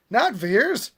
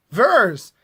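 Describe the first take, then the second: First: "Veers" with a long ee, higher; pronounced as two E's. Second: "Vers" said loud with a short e; pronounced with one E. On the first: Vlogger rejecting a mispronounced name, long-ee "Veers". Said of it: "one E pronounced as two E's". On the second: Vlogger correcting a character's name, short-e "Vers". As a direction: punch "Vers" with a short vowel. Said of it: "why is one E pronounced as two E's?". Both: Shown as a demonstration.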